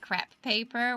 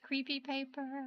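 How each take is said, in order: First: The first word is said as one syllable. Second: The first word is said as two syllables.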